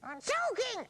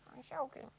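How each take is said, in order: First: It is shouted loudly. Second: It is said quietly.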